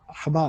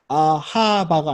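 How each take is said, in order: First: The middle vowel is very short and fleeting. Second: The middle vowel is a full, clear vowel. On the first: The speaker calls it right. "파타흐보다 더 짧은 소리 스쳐 지나가는 소리" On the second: The speaker calls it wrong. "아하바가 아니라"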